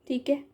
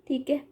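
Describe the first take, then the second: Both takes have the same delivery.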